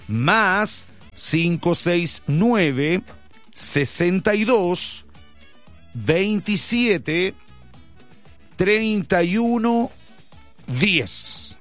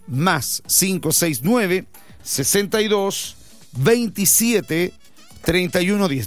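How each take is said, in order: First: It is read slowly and deliberately. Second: It is read at normal speed.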